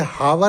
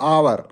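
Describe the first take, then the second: First: The word begins with an h sound. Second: The word begins directly with a vowel. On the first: The speaker calls it wrong. "ये हावर नहीं बोलता" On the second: The speaker calls it right. "ये बोलता है आवर"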